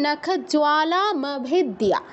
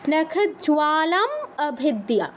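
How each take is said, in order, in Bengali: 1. দুটি শব্দ থামা ছাড়াই একসাথে বলা হয়। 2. দুটি শব্দ একটু থেমে আলাদা করে বলা হয়। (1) "সন্ধি না ভাঙতে চাইলে" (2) "সন্ধি ভাঙতে চাইলে"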